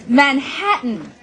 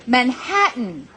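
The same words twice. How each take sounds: No difference in how they are said.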